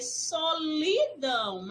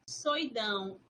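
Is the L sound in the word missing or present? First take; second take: present; missing. First: The L sound in the middle is pronounced. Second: The L sound in the middle is dropped. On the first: "Seria solidão" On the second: "houve a perda do fonema da letra L"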